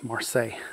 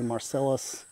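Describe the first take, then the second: First: It has two syllables and ends in 'say'. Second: It has three syllables and ends in 'us'. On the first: The speaker calls it right. "that's how you say it" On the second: The speaker calls it wrong. "They want to say Marcellus"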